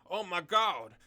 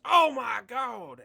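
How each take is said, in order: First: Loud, higher exclamation; mock-screamed outburst from a comic blurb; acted scream. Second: Drawn-out, very high, booming commentator shout; full-volume wrestling-commentary impression; Jim Ross. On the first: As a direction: shout it out as a hyped-up reading. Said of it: "will have you screaming". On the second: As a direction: bellow it slowly like a shocked wrestling announcer. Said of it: "I gotta do the Jim Ross".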